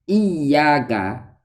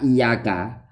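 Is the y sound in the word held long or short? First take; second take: long; short. First: The y sound is doubled and held long. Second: The y sound is single and short. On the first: The speaker calls it right. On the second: The speaker calls it wrong.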